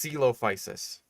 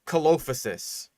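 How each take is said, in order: First: The first vowel is a hard E sound. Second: The first vowel is not a hard E sound. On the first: The speaker calls it right. "it's a hard E sound" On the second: The speaker calls it wrong. "No, that's not quite right"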